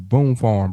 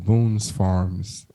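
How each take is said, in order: First: The name is said without any S sound. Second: The name is said with added S sounds. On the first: The speaker calls it right. "We don't pronounce the S" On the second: The speaker calls it wrong. "You said Boone's Farms"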